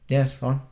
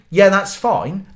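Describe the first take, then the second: First: It sounds grudging, with a disapproving tone. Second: It sounds genuinely accepting and relaxed.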